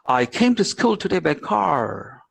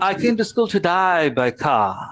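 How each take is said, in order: First: It is spoken in an American accent. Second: It is spoken in an Australian accent. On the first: "But an American will say" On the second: "Australian normally they say so"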